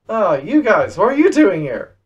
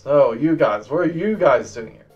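First: It is said in a casual, mild tone. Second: It is said in a stern, firm tone.

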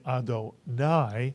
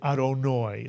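First: The word is said in the Sephardic pronunciation. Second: The word is said in a non-Sephardic pronunciation. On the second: "they say Adonoi"

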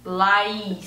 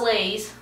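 First: The name does not sound like 'Lays'. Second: The name sounds like the word 'Lays'. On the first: The speaker calls it right. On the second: The speaker calls it wrong.

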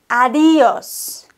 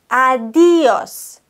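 First: The stress falls on the second syllable, 'di'. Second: The stress falls on the second syllable, 'di'.

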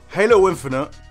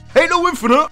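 First: It is said softly and hesitantly. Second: It is said loudly and boldly. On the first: The criticism is hedged. The speaker calls it wrong. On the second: The criticism is stated with conviction. The speaker calls it right.

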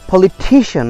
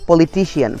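First: The stress falls on the syllable before -cian. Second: The stress falls on a different syllable. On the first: The speaker calls it right. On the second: The speaker calls it wrong.

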